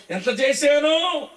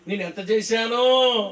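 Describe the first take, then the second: First: Higher, louder, slow drawn-out brag of ఎంత చేశానో; mock boasting. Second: Mock boasting. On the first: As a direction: stretch out ఎంత చేశానో like a show-off mocking his own good deeds. (ఎగతాళిగా, గొప్పలు చెప్పుకునే రాగంతో, నెమ్మదిగా) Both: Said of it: "చెప్పుకునే కబుర్లు కబురు బండం అంత".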